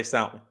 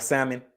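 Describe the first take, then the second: First: "Salmon" said SOW-min; own salmon pronunciation. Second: "Salmon" said SAM-in, silent L; others' salmon pronunciation. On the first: Streamer showing how he himself says it, own pronunciation. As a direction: say "Salmon" with an ow in the first syllable. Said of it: "I say". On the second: Streamer showing how other people say it, standard pronunciation. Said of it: "people be like". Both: Shown as a demonstration.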